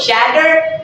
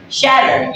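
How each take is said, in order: First: SHATTER with a clear hard T; slow SHATTER, T fully sounded; double T sounded. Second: Slow SHATTER, American flap; flapped T. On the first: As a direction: say SHATTER with a crisp T. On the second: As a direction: say SHATTER like "shadder". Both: Shown as a demonstration. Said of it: "place D instead of using double T".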